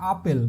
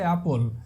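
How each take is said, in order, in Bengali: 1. প্রথম স্বরধ্বনিটি একটি খোলা 'ah' শব্দ। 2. প্রথম স্বরধ্বনিটি cat শব্দের 'a'। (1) "এটাকে আমরা বলি হচ্ছে আপেল, বাট এটা আপেল না" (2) "এটা হচ্ছে অ্যাপল"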